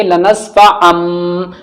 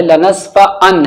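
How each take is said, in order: First: "लनस्फा अम" with a long hummed final m; n changed to m. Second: Said in the usual way. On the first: Shown as a demonstration. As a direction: draw out the closing m of "अम". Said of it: "अब हम इसे क्या पढ़ेंगे?". ("अम" का मीम गुन्ने से लंबा) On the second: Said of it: "असल".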